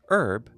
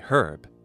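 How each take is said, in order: First: The word starts without an h sound. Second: The word starts with an h sound. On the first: This is the American way of saying it. "Americans say herb" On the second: This is the British way of saying it. "having benefited from a fuller restoration, say herb"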